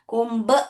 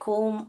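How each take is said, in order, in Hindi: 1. अंत में b की ध्वनि बोली जाती है। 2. शब्द बिना किसी b ध्वनि के खत्म होता है।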